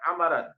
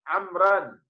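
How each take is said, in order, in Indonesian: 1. Kata ini memiliki tiga suku kata, ada vokal di antara m dan r. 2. Kata ini memiliki dua suku kata, tidak ada vokal di antara m dan r. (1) "bukan amaran" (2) "harusnya amran"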